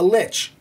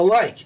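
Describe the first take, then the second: First: The word ends with a ch sound. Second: The word ends with a k sound. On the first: The speaker calls it right. "they're called a lich" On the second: The speaker calls it wrong. "not a like"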